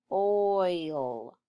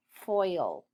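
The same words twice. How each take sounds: First: Foil split into a separate F and a long OIL; sounded out. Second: Said in the usual way. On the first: Shown as a demonstration. Teacher sounding out a word for pupils, F, then oil drawn out. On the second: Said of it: "Read foil".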